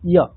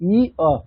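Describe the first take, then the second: First: The two vowel sounds are blended into one. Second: The two vowel sounds are said separately.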